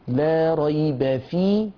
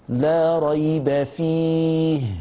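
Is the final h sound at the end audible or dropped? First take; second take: dropped; audible. First: The final h sound is dropped and not heard. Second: The final h sound is heard with flowing breath. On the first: The speaker calls it wrong. "لا نستمع إلا لياء، أين صوت الهاء؟" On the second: The speaker calls it right. "فيه الهواء المتدفق"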